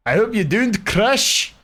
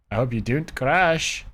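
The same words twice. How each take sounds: First: High, slow pleading whine. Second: Said in the usual way. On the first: Pretend. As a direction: beg the game not to crash, high and drawn out. Pleading with game to load.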